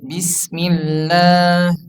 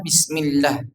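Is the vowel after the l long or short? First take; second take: long; short. First: The vowel after the l is long. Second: The vowel after the l is short. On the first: The speaker calls it right. "Tapi bismillah" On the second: The speaker calls it wrong. "supaya tidak dibaca bismillah"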